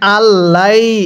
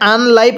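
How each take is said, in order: First: The n sound merges into a doubled l. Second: The n sound is pronounced before the l. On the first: The speaker calls it right. "এখানে আল্লাই এরকম ভাবে পড়ছি" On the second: The speaker calls it wrong. "এখানে আনলাই পড়ি নাই"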